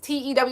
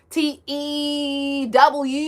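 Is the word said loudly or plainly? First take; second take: plainly; loudly. First: The word is said at normal volume. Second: The word is said loudly and drawn out. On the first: "It's not just T E W" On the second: "And it's like loud"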